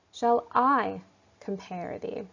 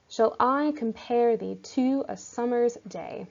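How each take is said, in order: First: Slow line, beats weighed one by one; slow scansion reading. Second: Reading the verse with its beats; scansion reading. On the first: Teacher slowly sounding out the stresses for students. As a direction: weigh each syllable slowly. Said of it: "the very first word, shall". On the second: Teacher reading Shakespeare's verse aloud, stressing the beats. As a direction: read the line marking each stress. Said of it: "as I'm saying this aloud". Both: Shown as a demonstration.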